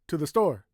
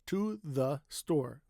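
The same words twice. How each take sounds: First: The words are said more quickly together. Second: Each word is said slowly and crisply. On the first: "what happens if you make it faster?" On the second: "They want to make every word sound crisp and clear. They over enunciate"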